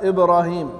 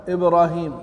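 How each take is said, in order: The two takes are said the same way.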